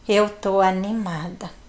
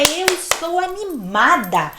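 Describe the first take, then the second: First: The voice sounds flat and unenthusiastic. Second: The voice sounds lively and enthusiastic. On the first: The words do not convey real excitement. The speaker calls it wrong. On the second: The words convey real excitement. The speaker calls it right.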